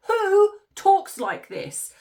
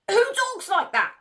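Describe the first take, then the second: First: Higher, louder, slow disbelief; slow incredulous. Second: Higher, disbelieving question; can you believe this, outraged; incredulous. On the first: Mocking the wife's quote, slow and incredulous. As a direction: stretch it out in disbelief. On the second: Mocking the wife's quote, incredulous. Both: Real, not acted.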